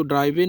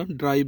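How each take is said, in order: First: "ड्राइवे" with an extra final ay sound; wrong pronunciation. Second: "ड्राइव" as one syllable ending on v; silent e. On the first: Teacher showing the misreading of drive, "ड्राइवे" with final e voiced. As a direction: say "ड्राइवे" as drai-vay, sounding the e. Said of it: "इसको ड्राइवे नहीं पढ़ना". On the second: Teacher giving the correct drive, "ड्राइव" with silent final e. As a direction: say "ड्राइव" with nothing after the v. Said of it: "ड्राइव बोलना होता है". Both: Shown as a demonstration.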